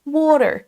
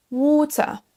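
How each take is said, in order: First: Water hit high on the first syllable, American; higher, punched first syllable of water; first-syllable stress. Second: Water high and long on waw, British r-less ending; British water, first syllable stressed. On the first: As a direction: stress WA in water, then drop. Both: Shown as a demonstration. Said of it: "vous accentuez bien la première syllabe".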